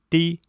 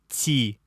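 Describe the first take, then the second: First: The t is said hard, without softening. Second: The t is said soft, with softening. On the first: "без смягчения" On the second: "со смягчением"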